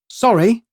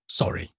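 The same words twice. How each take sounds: First: It is light, with nervousness on the second syllable. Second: The voice drops low and final at the end. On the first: It shows fragility and vulnerability. The speaker calls it right. "with a lighter inflection" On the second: It closes the exchange with finality. The speaker calls it wrong. "My voice had sunk too far at the end"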